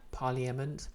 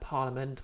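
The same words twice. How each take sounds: First: Every letter is sounded out as spelled. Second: It is said the ordinary, reduced way.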